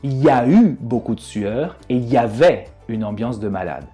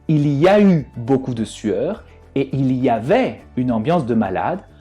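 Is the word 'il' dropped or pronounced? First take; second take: dropped; pronounced. First: The word il is dropped completely. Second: The word il is fully pronounced.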